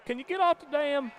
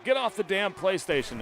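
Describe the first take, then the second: First: Very high mock wife, Midwestern hick twang; English accent gone hick. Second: High mock English wife, scolding; English accent. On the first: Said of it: "that sounds like a hick". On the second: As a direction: imitate a wife's English accent, ordering him off. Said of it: "in her England accent".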